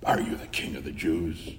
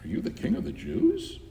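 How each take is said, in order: First: The question sounds scornful and contemptuous. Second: The question sounds amazed and astonished. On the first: The asker looks down on the one addressed. "if he asked it in scorn" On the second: The asker can hardly believe the claim. "if he asked it in amazement"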